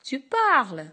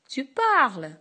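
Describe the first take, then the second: First: It is said with a sharp, commanding tune. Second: The same.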